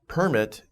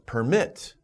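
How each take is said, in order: First: The stress is on the first syllable. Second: The stress is on the second syllable. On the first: It names a document allowing something. "Permit is a noun" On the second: It means to allow something. "Permit is a verb"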